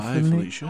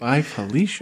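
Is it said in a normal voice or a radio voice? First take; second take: radio voice; normal. First: It is said in a deep radio voice. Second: It is said in his normal voice.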